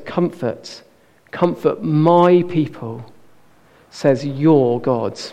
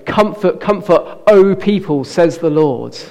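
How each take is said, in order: First: Slow, leaning hard on "my" in "my people" and on "your" in "your God"; personal stress on my and your. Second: "Comfort, comfort, O people, says the Lord" with a lifted, formal "O" and no weight on people; formal and distant, stress on "O"; generic distant version. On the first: Preacher showing God's personal words, slowly stressing "my" and "your". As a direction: linger on "my" and "your" to make it personal. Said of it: "No, it's". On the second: Preacher showing the impersonal wording, stressing "O". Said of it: "God doesn't say". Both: Shown as a demonstration.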